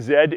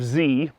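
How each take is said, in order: First: The letter is pronounced as 'zed'. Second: The letter is pronounced as 'zee'. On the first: This is the Canadian way to say it. "Canadians say Z" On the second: This is the American way to say it. "instead of Z"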